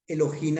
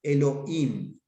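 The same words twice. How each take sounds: First: Elohim with the h said as a Spanish jota, harsh throat sound, e-lo-JIM. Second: Elohim with the h dropped, e-lo-IM; Elohim with a silent H. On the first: Teacher reading the J spelling of Elohim aloud, jota sound. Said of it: "hay gente que escribe Elohim así". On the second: Teacher reading the H spelling of Elohim aloud, silent h. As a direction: let the h in Elohim vanish, vowels run together. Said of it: "cuando hablo Elohim con J". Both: Shown as a demonstration.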